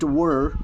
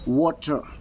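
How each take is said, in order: First: It is said with an American accent. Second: It is said with a British accent. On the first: "In American English, we call it" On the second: "the British English, we call it"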